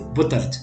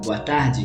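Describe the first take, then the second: First: It has clipped vowels in a Portuguese accent. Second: It has full vowels in a Brazilian accent. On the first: "shorten the vowels and basically not say it ... it's like more Portuguese" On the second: "instead of saying"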